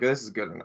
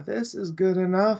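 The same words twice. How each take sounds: First: The tone sounds grudging and dismissive. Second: The tone sounds relaxed and satisfied. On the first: The result is not really acceptable. "you're saying it's not really good enough" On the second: The result is genuinely acceptable. "I can just relax"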